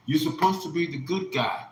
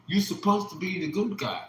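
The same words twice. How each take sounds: First: Said in the usual way. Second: Higher, softer, tearful repeat; softer tearful echo. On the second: Retold or imitated. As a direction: echo it softly, as if near tears. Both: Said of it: "She was in tears".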